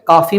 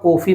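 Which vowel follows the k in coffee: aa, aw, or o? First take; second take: aa; o. First: The first vowel is a long 'aa' sound. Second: The first vowel is a closed 'o' sound. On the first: "ना तो हम उसे काफी बोलते हैं" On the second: "ना कॉफी बोलते हैं"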